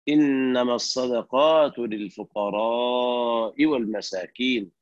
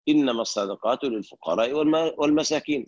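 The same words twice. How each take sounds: First: The vowel in lil-fuqara is drawn out long. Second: The vowel in lil-fuqara is kept short. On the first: The speaker calls it right. "فمدها" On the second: The speaker calls it wrong. "فقرأها مرسلة يعني بدون مد للفقراء، كما يقرأ العوام"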